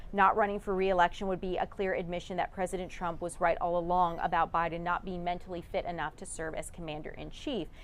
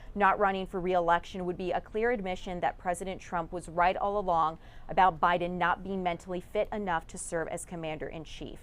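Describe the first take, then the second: The two takes are said the same way.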